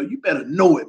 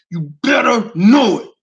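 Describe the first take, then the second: First: Said in the usual way. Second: Louder, crying out. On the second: Real, not acted.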